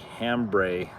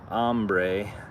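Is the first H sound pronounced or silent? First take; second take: pronounced; silent. First: The word begins with an H sound. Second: The word begins without an H sound. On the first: "if we pronounce it in English, it would be hambre" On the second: "they don't pronounce the H if it's at the beginning of a word"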